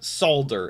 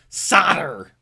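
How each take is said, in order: First: The word is said in a European way. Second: The word is said in an American way. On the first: "if you're in Europe" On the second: "If you're a cheeseburger eater"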